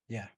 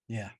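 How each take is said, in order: Both takes have the same delivery.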